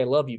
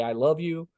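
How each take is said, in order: First: Mean it as you say it; sincere. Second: A mild mock yell, only slightly higher; half-hearted demo of yelling it. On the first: Dad saying it sincerely to his children. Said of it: "or I could say it sincerely". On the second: Dad half-yelling at his children. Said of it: "I could yell at them and say". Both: Shown as a demonstration.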